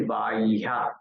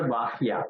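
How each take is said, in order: First: "bahya" drawn out as ba-ih-ya; lower, careful "bahya", sounded ba-iha; correct "bahya". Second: "bahya" with the syllables run straight through as bahi-ya; wrong "bahya". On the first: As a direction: say "bahya" with a long first vowel gliding into the h. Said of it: "it is bahya". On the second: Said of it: "it is not bahya". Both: Shown as a demonstration.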